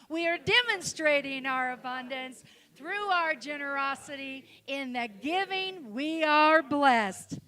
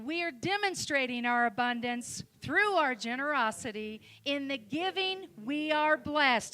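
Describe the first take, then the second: First: It is said with strong, energetic conviction. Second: It is said plainly, without much conviction.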